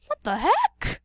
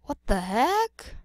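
First: Loud, high squeak of disbelief; squeaky, loud and baffled; high-pitched disbelief. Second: Baffled, rising at the end; rising disbelief. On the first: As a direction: shoot up high on the last word. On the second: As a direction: question rising sharply at the end. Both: Acted. Same question repeated, escalating.

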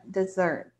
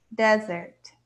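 First: Dessert said de-ZERT, stress on the second syllable; English pronunciation. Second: Desert said DEZ-ert, stress on the first syllable. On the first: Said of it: "Mais curto". (dessert com tônica na segunda sílaba) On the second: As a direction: model Desert with the weight up front. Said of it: "a tônica é a primeira". (Desert com a tônica na primeira sílaba) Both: Shown as a demonstration.

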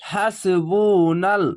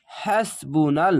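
First: হাসবুনাল drawn very slowly; slow recitation. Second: হাসবুনাল slow with rising end; slow recitation. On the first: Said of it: "সিন যাবার হ্যাস". (হাসবুনাল ধীরে তিলাওয়াত) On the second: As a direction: join হাসবুনাল slowly. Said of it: "নুন লাম যাবার নাল". (হাসবুনাল ধীরে মিলিয়ে) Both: Shown as a demonstration.

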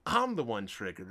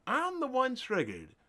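First: Said in the usual way. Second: Higher, mocking sarcastic repeat. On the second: Real, not acted. Mocking critics who call him the triggered one, sarcastic. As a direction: throw "triggered" back at them with scorn.

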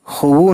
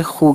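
First: खुबू, wrongly read as two syllables. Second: खू, said as one long syllable; correct reading. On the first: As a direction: say खुबू the way it should not be read. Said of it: "खुबू नहीं कहते". (गलत उच्चारण खुबू) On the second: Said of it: "खू कहते हैं". (सही उच्चारण खू) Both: Shown as a demonstration.

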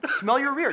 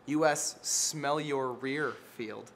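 First: "Smell your rear" higher and louder, hitting "rear"; giddy with his own joke, hitting "rear"; excited repeat. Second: "U S Smell Your Rear Field" drawn out slowly, word by word; deadpan unveiling of "Smell Your Rear"; slow punchline. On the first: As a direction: punch "Smell your rear" as a gleeful callback. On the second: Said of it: "Because dogs". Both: Shown as a demonstration.

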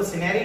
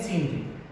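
First: सीनरी in three syllables, si-naa-ri; wrong pronunciation. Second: सीनरी squeezed to two syllables, seen-ri; no vowel after the n in सीनरी: seen-ri; सीनरी said as seen-ree; correct pronunciation. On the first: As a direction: put a long aa inside सीनरी: si-NAA-ri. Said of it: "अब इसको सीनरी नहीं". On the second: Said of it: "क्या बोलते हैं?". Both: Shown as a demonstration.

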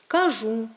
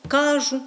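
First: «Кажу» stressed on the last syllable; літературний наголос. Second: «кажу» stressed on the first syllable; діалектний наголос. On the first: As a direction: say «Кажу» as kaZHU. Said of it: "останньому складі". («Кажу» з наголосом на останньому складі) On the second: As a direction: say «кажу» as KAzhu, dialect stress. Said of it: "вплив діалектного мовлення". («кажу» з наголосом на першому складі) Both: Shown as a demonstration.

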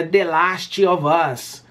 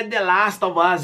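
First: "The Last of Us" slowly, with "Last" as "lastchi"; supposed correction. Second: "The Last of Us" with long British ah in Last; rejected pronunciation. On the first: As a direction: add a Brazilian chee after "Last" in "The Last of Us". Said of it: "muita gente fala". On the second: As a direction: say "Last" as "lahst", running smoothly into "of Us". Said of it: "E muita gente fala, "Ah, não é". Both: Retold or imitated.

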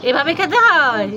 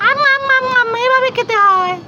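First: Said in the usual way. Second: Showing how to eat. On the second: Shown as a demonstration. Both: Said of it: "একটু দেখাও তো lollipop কিভাবে খেতে হয়".

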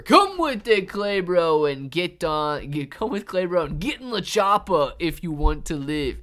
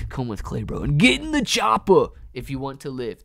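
First: Loud, higher, hammed-up action hero; Terminator impression. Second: Terminator impression. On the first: Urging Clay Bro into the chopper, hammed-up Terminator voice. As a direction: bark the rescue line like a bad movie hero. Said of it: "My accents are the worst". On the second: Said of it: "my impressions ... are the worst impressions ever".

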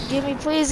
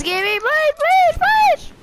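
First: Said in the usual way. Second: Rising, louder frantic pleading; desperate begging. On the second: Real, not acted. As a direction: beg harder and higher each time. Escalating begging for gun.

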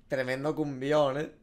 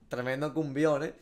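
Both takes have the same delivery.

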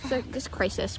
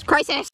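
First: Said in the usual way. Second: Crisis! said louder and higher, mock alarm; dramatic exclamation. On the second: Shown as a demonstration. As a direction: repeat Crisis! with a loud dramatic punch.

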